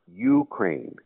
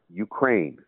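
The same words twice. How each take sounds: First: It sounds unlike the start of Ukrainian. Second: It sounds like the start of Ukrainian. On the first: The speaker calls it wrong. "not Ukraine" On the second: The speaker calls it right. "it is pronounced Ukraine"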